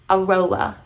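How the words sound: It is said with an English pronunciation. This is how people in the UK say the name. "In the U K, they say it like this"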